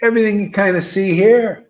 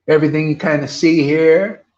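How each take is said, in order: First: Higher, louder rousing call to the crowd; a preacher calling the crowd to join in; louder call again. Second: Call to the crowd. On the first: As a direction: lift the room with it. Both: Shown as a demonstration. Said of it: "One more time".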